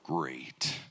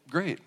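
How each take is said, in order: First: The word sounds angry and threatening. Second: The word sounds sincere and cheerful. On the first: The speaker is furious with the listener. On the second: Everything is fine.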